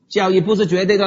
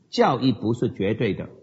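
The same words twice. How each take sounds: First: It sounds dismissive and offhand. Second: It sounds earnest and measured. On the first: Doctrine can simply be thrown away. The speaker calls it wrong. "看你这句话用什么声调来表达" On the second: Only scripture is absolute, though doctrine still matters. The speaker calls it right. "或者你可以这样说，是的"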